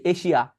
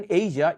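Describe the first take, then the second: First: 'এশিয়া' with a sh sound, eshia; everyday Bengali pronunciation. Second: 'এশিয়া' with a voiced zh, eizha; actual English sound. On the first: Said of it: "তারপর কি বলি". ('এশিয়া' বাংলা শ দিয়ে) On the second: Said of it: "এইটা আসলে সাউন্ডগুলো কেটে একটু বলে দিই". ('এশিয়া' ইংরেজি zh দিয়ে) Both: Shown as a demonstration.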